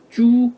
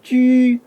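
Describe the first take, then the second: First: The vowel is a back, rounded 'oo' sound. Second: The vowel is a fronted, rounded 'ü' sound. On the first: The speaker calls it wrong. "영문식으로 보면 주... 그렇게 발음해서는 안 됩니다" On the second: The speaker calls it right. "쥐라고 해야죠"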